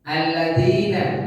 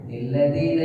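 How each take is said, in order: First: The word starts directly with its vowel, no 'n'. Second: The word starts with an added 'n' sound. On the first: The nun iwad is not read at the start of a verse. The speaker calls it right. "nun iwat di awal ayat tidak dibaca" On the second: The nun iwad is wrongly carried over to the start of the verse. The speaker calls it wrong. "Jangan sampai nanti Bapak Ibu yang sudah belajar kemudian baca nilladina"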